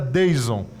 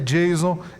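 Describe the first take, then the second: First: The name starts with a plain d sound. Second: The name sounds like the English name Jason. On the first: This is how the letters would literally be read. "se a gente fosse levar gramaticalmente o meu nome ao pé da letra, seria Deison" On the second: This is how his mother says it. "a minha mãe diz que é Jason"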